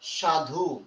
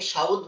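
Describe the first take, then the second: First: The u vowel comes at the end of the word. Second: The u vowel comes before the final consonant. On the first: This is the current form of the word. "শেষে একটা উ আছে না" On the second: This is an old form no longer used. "এই রস্যকারটা আগে চলে আসে"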